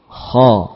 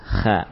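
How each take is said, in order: First: The sound is heavy, with a thick quality. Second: The sound is light, without a heavy quality. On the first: The speaker calls it right. "Lafaz huruf kha adalah dengan tafkhim" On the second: The speaker calls it wrong. "Bisa kan kita baca kha dengan tipis"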